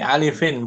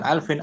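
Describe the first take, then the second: First: It has three syllables, with a vowel after l. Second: It has two syllables, with no vowel after l. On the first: The speaker calls it right. "dari alifin" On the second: The speaker calls it wrong. "bukan alfin"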